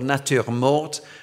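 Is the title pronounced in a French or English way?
French. The title is pronounced with a French accent. "I'm trying to say it in a French way"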